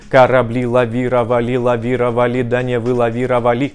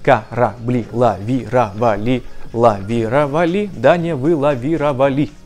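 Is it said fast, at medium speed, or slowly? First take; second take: medium; slowly. First: It is said at a moderate, somewhat faster pace. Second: It is said slowly, syllable by syllable.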